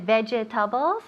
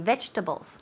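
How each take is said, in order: First: The word is said with four full syllables. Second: The middle syllable is dropped, giving three syllables. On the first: "hay muchas sílabas ahí" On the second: "We take out one syllable en medio ahí. We say vegetables"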